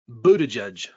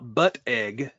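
First: The name sounds like 'boot a judge'. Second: The name sounds like 'butt' plus 'egg'. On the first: The speaker calls it right. "I'm fairly certain it's Buttigieg" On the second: The speaker calls it wrong. "it's not Buttigieg. ... It has nothing to do with a butt or eggs"

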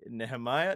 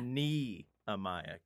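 First: The first part sounds like neh-heh, with an h. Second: The first part sounds like knee, with no h. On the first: The speaker calls it wrong. "I have been pronouncing the latest book incorrectly" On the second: The speaker calls it right.

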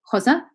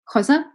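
The two takes are said the same way.

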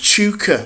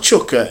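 First: The name rhymes with snooker. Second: The name does not rhyme with snooker. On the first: The speaker calls it right. "It's pronounced like snooker" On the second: The speaker calls it wrong. "It's not Chuka"

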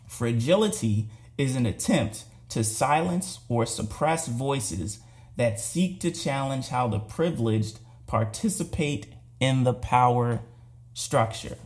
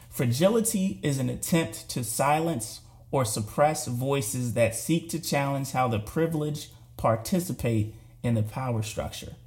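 First: It is said slowly. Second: It is said at a normal pace.

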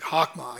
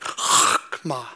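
First: The opening sound is a plain, soft consonant. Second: The opening sound is a harsh throat sound. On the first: The speaker calls it wrong. "it's not like chokmah" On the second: The speaker calls it right. "They got to get those guttural sounds in there"

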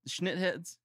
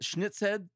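First: The first syllable ends with a plain 't' sound. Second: The first syllable ends with a 'ts' sound. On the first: "It's Schnittheads" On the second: "So is it Schnitzhead?"

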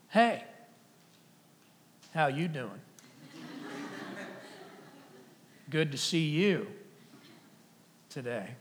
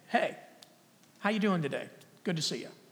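First: It is said in a creepy, suggestive tone. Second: It is said in a plain, friendly tone.

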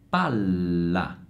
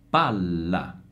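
No difference in how they are said.

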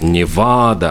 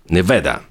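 First: The middle syllable is drawn out and long. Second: The middle syllable is short and not stretched. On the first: This is the Spanish-style pronunciation. "Обычно там «Невада»" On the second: This is how locals say the name. "говорят средний слог коротко, не растягивают"

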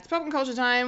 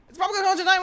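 First: It is said faster than normal. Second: It is said very fast.

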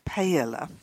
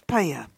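First: The word is said the English way. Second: The word is said the Spanish way. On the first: The speaker calls it wrong. "not paella" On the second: The speaker calls it right. "It's that Spanish dish, paella"

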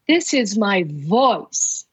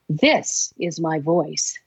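First: The word 'voice' carries the stress. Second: The word 'this' carries the stress.

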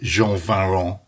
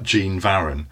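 First: The name is pronounced in a French-style way. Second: The name is pronounced as English spelling suggests. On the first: This is the guessed proper pronunciation. The speaker calls it right. "my guess is" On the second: This is how it looks when simply read. The speaker calls it wrong. "the uninitiated, if you just read it, it looks like"

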